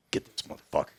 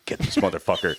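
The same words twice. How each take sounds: First: Whispered urging. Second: Said in the usual way. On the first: Retold or imitated. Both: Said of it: "and he's like".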